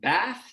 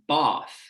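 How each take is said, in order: First: The vowel is low and at the front. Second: The vowel is low and further back. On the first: "my pronunciation" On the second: "something more like"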